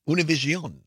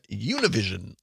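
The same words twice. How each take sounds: First: The name is said with Spanish pronunciation. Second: The name is said with English pronunciation. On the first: The speaker calls it right. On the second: The speaker calls it wrong.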